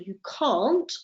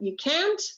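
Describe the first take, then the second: First: It is said with a British accent. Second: It is said with an American accent. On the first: "you'll see that the pronunciation of my vowel changes" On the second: "if you go to the United States, you'll find that the difference is very, very minimal"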